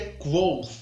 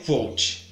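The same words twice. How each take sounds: First: The name is said in its harder, original form. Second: The name is said in a simpler, easier form. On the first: This is the name's true pronunciation. "Na verdade, a pronúncia é Kvothe" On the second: This is an easier form used for convenience. "é um saco falar isso enquanto você está lendo, então, para fins de registro, aqui no vídeo vai ser Kvothe"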